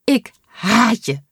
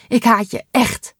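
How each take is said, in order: First: Slow, tearful, a bit higher and louder, Ik haat je with a quiver; trembling voice. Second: Tearful, a bit higher and louder, Ik haat je echt with a quiver; trembling voice. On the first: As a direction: choke out Ik haat je through tears of relief. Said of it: "zegt ze met trillende stem". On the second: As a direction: still crying, push Ik haat je echt out. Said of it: "met trillende stem". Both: Acted.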